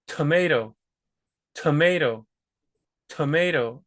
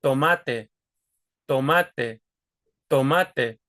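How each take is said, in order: First: Tomato with a puff of air on the T; aspirated English T. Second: Tomate with an unaspirated T, no air released; tongue tip blocks the air on the T of tomate; Spanish T. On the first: Teacher demos English tomato. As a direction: breathe out on the T of tomato. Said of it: "same thing with the T's". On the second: Teacher demos Spanish tomate. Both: Shown as a demonstration.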